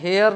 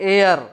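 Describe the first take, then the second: First: The word begins with an h sound. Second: The word begins without an h sound. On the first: The speaker calls it wrong. "इसको हम हेयर नहीं" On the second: The speaker calls it right. "इसको हम क्या पढ़ते हैं"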